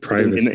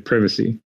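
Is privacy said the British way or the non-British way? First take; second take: non-British; British. First: It is said with a non-British pronunciation. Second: It is said with a British pronunciation. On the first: "instead of privacy" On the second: "he'll say privacy"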